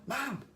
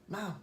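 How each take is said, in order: First: The word is said much louder, insistently. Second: The word is said at a normal, softer volume.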